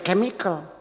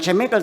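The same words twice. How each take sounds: First: It begins with a 'k' sound, as in kit. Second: It begins with a 'ch' sound, as in church. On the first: The speaker calls it right. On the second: The speaker calls it wrong.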